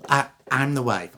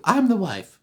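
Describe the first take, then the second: First: Hesitant, near-natural acted answer; first wife. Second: High, insistent claim; second wife. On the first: First wife identifying herself to the judge, hesitant. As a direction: answer with a small stammer. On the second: Acted. Second wife contradicting the first in court, insistent. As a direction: claim it in a raised voice.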